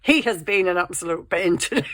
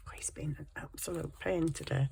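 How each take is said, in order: First: Loud, emphatic complaint. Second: Hushed, unvoiced whisper. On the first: Vlogger openly griping about the pet, loud and emphatic. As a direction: say it out loud, dropping all secrecy. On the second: Vlogger griping about the pet in a whisper. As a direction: whisper a confidential complaint. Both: Real, not acted. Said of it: "I don't know why I'm whispering".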